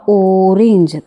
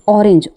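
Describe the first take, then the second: First: "ऑरेंज" with a long, loud opening O; "ऑरेंज" as ooo-range, first sound held; stressed O sound. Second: Said in the usual way. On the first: Shown as a demonstration. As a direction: stretch the first vowel of "ऑरेंज" to show the O. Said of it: "ओ की sound आ रही है". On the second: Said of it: "ऑरेंज में ओ की sound आ रही है".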